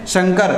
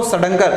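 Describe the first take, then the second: First: शंकर with a velar nasal before क; correct Shankar. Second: सडंकर with a curled-tongue retroflex nasal; wrong retroflex Shankar. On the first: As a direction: say शंकर as shaŋ-kar, nasal at the back. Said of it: "जैसे मैं लिखता हूँ शंकर". (शंकर का सही उच्चारण, कंठ्य ङ के साथ) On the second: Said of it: "हो जाता सड़ंकर". (सडंकर, मूर्धन्य ण वाला गलत उच्चारण) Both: Shown as a demonstration.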